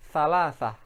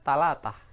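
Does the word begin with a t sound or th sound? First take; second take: th; t. First: The word begins with a th sound. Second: The word begins with a t sound. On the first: This is the standard Arabic form. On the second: This is the Egyptian everyday form. "Mesir sehari-hari mereka menyebutnya"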